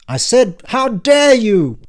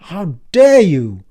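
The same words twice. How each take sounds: First: Much higher, loud, slow furious repeat; furious yell. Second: Loud, slow offended demand; outraged. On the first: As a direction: hurl "how dare you" with more fury. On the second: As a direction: stress DARE in outrage. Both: Acted. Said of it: "stop yelling".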